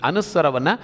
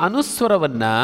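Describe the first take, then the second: The two takes are said the same way.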